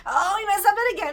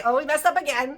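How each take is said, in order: First: High, loud, fast anguished cry; Hashem crying. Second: A mild sighing people voice; rueful "oh, we messed up again". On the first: Hashem lamenting over his people, high anguished cry. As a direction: cry it out as a grieving God. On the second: People shrugging off their mistake, mildly rueful. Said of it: "Hashem's sending us to say". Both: Retold or imitated.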